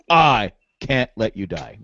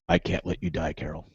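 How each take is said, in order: First: It is said with dramatic emotion. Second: It is said flat, like Morgan.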